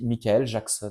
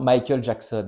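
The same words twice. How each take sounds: First: The name is pronounced in a distorted way. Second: The name is pronounced in the usual way.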